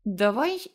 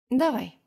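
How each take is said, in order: First: Light inviting lead-in with a rising end; playful proposal. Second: Higher-pitched, falling, readily agreeing; easy agreement. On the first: Dima proposing a spinning-top contest to her, playful proposal. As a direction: toss out a friendly challenge. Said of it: "а потом предложил". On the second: Heroine taking up Dima's challenge, easy agreement. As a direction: accept the challenge without a second thought. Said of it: "легко согласилась я". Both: A narrator's reading.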